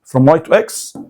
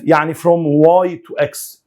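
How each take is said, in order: First: Said in the usual way. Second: Each word of from Y to X spaced out slowly; slow emphasis. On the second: Shown as a demonstration. (ببطء: from Y to X كلمة كلمة)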